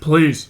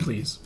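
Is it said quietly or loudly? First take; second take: loudly; quietly. First: It is said louder. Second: It is said fairly quietly.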